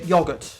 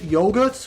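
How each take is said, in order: First: It is said with a British accent. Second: It is said with an American accent. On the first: "us Brits would say yogurt" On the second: "American Yanks would say yogurt"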